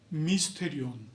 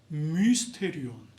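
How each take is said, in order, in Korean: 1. 이 단어는 일상에서 편하게 발음됩니다. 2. 이 단어는 또박또박 정확하게 발음됩니다.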